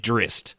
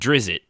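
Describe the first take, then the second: First: No vowel is added before the final t. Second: An extra vowel is added before the final t. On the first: The speaker calls it right. "it's actually Drist" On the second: The speaker calls it wrong. "I pronounced it Drizzt, which everybody did"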